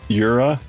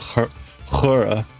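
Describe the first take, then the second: First: The name is said with a German pronunciation. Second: The name is said with a Spanish pronunciation. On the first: "The German pronunciation of it" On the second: "When you give it a Spanish pronunciation"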